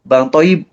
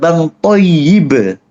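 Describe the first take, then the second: First: The y sound is short and single. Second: The y sound is doubled and held. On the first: The speaker calls it wrong. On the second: The speaker calls it right. "Yang benar"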